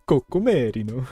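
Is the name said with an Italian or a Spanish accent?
Italian. The name is said with an exaggerated Italian accent. "I'll just end up sounding like Mario or something"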